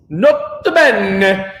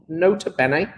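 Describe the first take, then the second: First: "Nota bene" drawn out, louder, Italian lilt; mock Italian accent. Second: Said in the usual way. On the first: Shown as a demonstration. Teacher contrasting plain and Italian-style "Nota bene". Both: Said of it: "Say it with an Italian accent".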